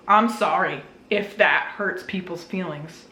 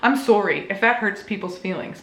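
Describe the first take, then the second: First: It is said in her plain accent. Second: It is said in a Canadian accent.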